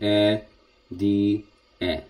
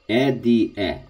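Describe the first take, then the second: First: The syllables are said slowly and apart. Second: The syllables are said quickly and together. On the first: The speaker calls it wrong. "That's correct, but we need to go a little bit faster" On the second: The speaker calls it right. "go a little bit faster because it's short"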